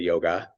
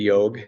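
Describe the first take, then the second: First: The word ends with a final vowel. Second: The word ends on the consonant g. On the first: This is how Americans say it. "In America we say yoga" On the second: This is how Hindi speakers say it. "In Hindi they say yog"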